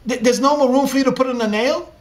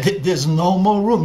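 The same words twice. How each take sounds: First: Higher, louder, fast stammered question; shocked son rising in disbelief; stunned disbelief. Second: Louder, heavy falling statement; grieving father confirming the worst; heartbroken father. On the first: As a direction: stammer it out, caught off guard. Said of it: "And that struck Yaakov". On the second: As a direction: lay it down like a final verdict. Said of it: "And the father began to weep". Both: Acted.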